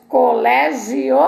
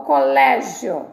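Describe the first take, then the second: First: "colégio" with the end broken apart, co-lé-gi-O; "colégio" in four syllables, gi and o separate; split ending. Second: "colégio" with gio as one syllable, co-LÉ-gio; "colégio" in three syllables, stress on lé; joined ending. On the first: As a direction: give the final o of "colégio" its own beat. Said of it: "Nós dizemos colégio ou colégio". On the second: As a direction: run the io of "colégio" together, unstressed. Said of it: "ou colégio?". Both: Shown as a demonstration.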